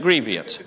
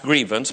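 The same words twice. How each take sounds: First: It is said with a West Virginian pronunciation. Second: It is said with the standard pronunciation. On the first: "I'm from West Virginia and we pronounce it grievance" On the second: "I know that it's pronounced grievance"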